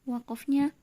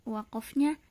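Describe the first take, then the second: Both takes have the same delivery.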